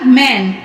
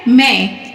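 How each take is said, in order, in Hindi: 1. शब्द का अंत एक पूरे 'न' व्यंजन से होता है। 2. शब्द का अंत एक अनुनासिक स्वर से होता है, उसमें 'न' नहीं है। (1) "नू में हम नुक्ता दिए तो ये क्या हो गया?" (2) "हमें क्या करना है?"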